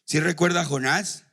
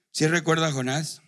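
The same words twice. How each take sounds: The two takes are said the same way.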